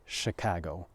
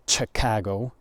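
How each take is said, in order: First: It begins with a soft sh sound. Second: It begins with a hard ch sound. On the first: The speaker calls it right. "but Chicago instead" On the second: The speaker calls it wrong. "you don't say Chicago"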